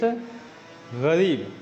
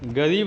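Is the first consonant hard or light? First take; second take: light; hard. First: The first consonant is said lighter and softened. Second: The first consonant is said hard, without softening. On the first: The speaker calls it right. "It's गरीब" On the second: The speaker calls it wrong. "गरीब नहीं होता"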